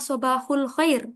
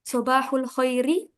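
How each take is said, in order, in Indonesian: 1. Kata terakhir berhenti pada konsonan. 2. Kata terakhir berakhir dengan vokal tambahan.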